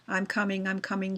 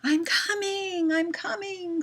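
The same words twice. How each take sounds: First: It is read flatly, without expression. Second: It is read expressively, like natural talk.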